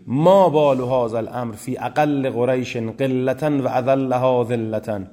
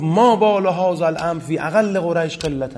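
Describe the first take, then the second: First: "ما بال هذا الامر فی اقل قریش قلة و اذلها ذلة" recited slowly, every word weighed; full original, slow. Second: "ما بال هذا الامر فی اقل قریش قلة" read higher, stopping short at "قلة"; cut version, quoted briskly. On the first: Teacher reads the uncut Arabic quote to the class, slow and deliberate. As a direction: lecturer stressing the full original wording, "اذلها ذلة" drawn out. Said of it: "عبارت اصلی ابو سفیان این بوده".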